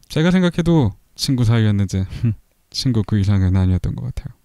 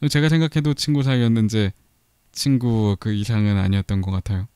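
First: It is read in a put-on character voice. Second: It is read in the speaker's ordinary voice.

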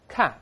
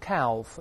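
First: The L is silent. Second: The L is pronounced. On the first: The speaker calls it right. "那个L 不发音的" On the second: The speaker calls it wrong. "不要读calf"

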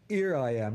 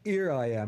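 First: It is said in Cockney, dropping the h. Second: The same.

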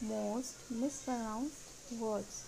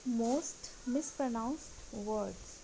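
The two takes are said the same way.

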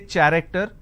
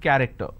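First: The word begins with a 'ch' sound. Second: The word begins with a 'k' sound. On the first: The speaker calls it wrong. "I don't say character" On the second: The speaker calls it right. "I have the letter C H and it's pronounced as K"

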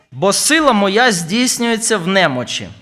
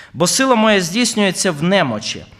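The two takes are said the same way.

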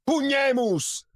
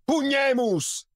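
Both takes have the same delivery.

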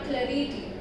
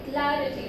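First: The stress is on a later syllable. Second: The stress is on the first syllable. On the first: The speaker calls it wrong. "not clarity" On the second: The speaker calls it right. "Stressing on syllable number 1"

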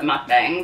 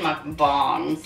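First: The second syllable rhymes with 'bang'. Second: The second syllable rhymes with 'bong'. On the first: This is the common North American pronunciation. "North Americans call it mukbang" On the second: This is the pronunciation found when looked up. "I looked it up and it said mukbang"

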